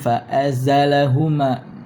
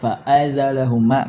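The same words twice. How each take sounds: First: The glottal stop is softened and blurred. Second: The glottal stop is pronounced fully and clearly. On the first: "membaca huruf hamzah dengan tashil samar" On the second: "membaca huruf hamzah dengan tahqiq ... tahqiq itu kan jelas"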